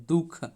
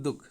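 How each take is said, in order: First: दुख in its formal form, "दुःख"; visarga form. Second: दुख said simply as "dukh", no visarga; simple form. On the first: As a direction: say दुख as duhkha, with the final vowel let out. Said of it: "इसको हम लोग दुख simple". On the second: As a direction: end दुख directly on the kh. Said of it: "simple लिखेंगे". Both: Shown as a demonstration.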